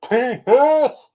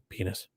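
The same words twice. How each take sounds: First: It is shouted as loudly as possible. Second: It is said at a normal, quiet volume.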